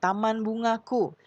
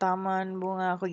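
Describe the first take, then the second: First: Each sound is articulated clearly and fully. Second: The sounds are articulated loosely and unclearly. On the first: The speaker calls it right. "Untuk lafal itu artikulasinya ya, misalnya nih" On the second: The speaker calls it wrong. "Jangan taman bungaku gitu ya"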